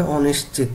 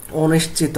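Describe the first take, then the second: First: অনিশ্চিত modelled carefully, ending on the final t; correct pronunciation. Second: অনিশ্চিত said the way students must avoid; mispronunciation demo. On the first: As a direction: give the careful model of অনিশ্চিত, falling at the end. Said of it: "উচ্চারণ হবে". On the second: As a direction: show the faulty reading of অনিশ্চিত. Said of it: "এইভাবে করা যাবে না". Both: Shown as a demonstration.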